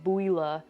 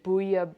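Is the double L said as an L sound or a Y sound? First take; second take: L sound; Y sound. First: The double L is said as an L sound. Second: The double L is said as a Y sound. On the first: The speaker calls it wrong. "I know it's not like bouilla" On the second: The speaker calls it right. "I think it's like a Y sound, the two L's"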